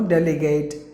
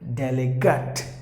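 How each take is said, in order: First: The last syllable sounds like the word gate. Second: The last syllable is reduced, unlike gate. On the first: The speaker calls it wrong. "Not gate. Like the gate you close and open" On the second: The speaker calls it right. "That's the way you have to pronounce the word"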